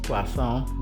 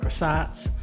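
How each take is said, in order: First: It is said with a non-American pronunciation. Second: It is said with an American pronunciation. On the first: The speaker calls it right. "correct pronunciation is croissant" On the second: The speaker calls it wrong. "as Americans call it"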